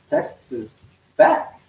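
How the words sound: It sounds hesitant and choked, lacking conviction. The team's return is not really believed. "choking up in their throat"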